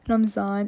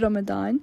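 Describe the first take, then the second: First: The word is said with a Pakistani pronunciation. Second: The word is said with the standard pronunciation. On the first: This is how the speaker grew up saying it. "I'm Pakistani, so we like to say it as Ramadan" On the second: This is how the word is actually pronounced. "how I guess it's actually pronounced, which would be Ramadan"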